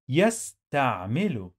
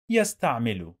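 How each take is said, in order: First: يستعمل slowly as "yas-ta'-milu"; teacher's slow, separated model of يستعمل; syllable-by-syllable demo. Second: Said in the usual way. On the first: Shown as a demonstration. Teacher sounds word out by syllables.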